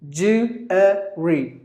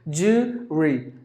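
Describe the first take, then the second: First: The word is said with three syllables. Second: The word is said with two syllables. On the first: The speaker calls it right. "There are actually three syllables in this word" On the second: The speaker calls it wrong. "pronounce it with just two syllables"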